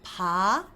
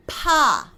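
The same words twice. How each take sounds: First: Pa with soft lips, gentle; soft Korean B. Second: Pa higher and much louder; sharp Korean P. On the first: Teacher contrasting the soft B with P. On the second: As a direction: pop a sharp breathy Pa. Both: Shown as a demonstration. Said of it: "hear the difference".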